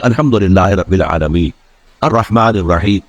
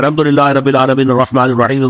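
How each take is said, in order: First: There is a pause between the verses. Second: The verses run together without a pause.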